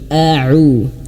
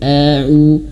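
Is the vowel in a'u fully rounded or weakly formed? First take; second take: fully rounded; weakly formed. First: The mouth is fully formed. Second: The mouth is not fully formed. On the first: The speaker calls it right. "tapi a'u" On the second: The speaker calls it wrong. "mulutnya kurang disempurnakan"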